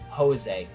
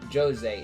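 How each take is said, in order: First: The name begins with an H sound. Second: The name begins with a J sound. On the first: The speaker calls it right. "their J's are ... pronounced with an H" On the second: The speaker calls it wrong. "it's not Jose"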